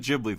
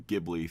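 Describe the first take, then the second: First: Ghibli starts with a soft G sound. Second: Ghibli starts with a hard G sound. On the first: The speaker calls it right. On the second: The speaker calls it wrong.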